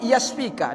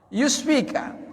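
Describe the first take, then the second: First: The first syllable has the vowel a. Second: The first syllable has the vowel u. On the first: The speaker calls it right. "dibaca seperti itu" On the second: The speaker calls it wrong. "bukan yus ya"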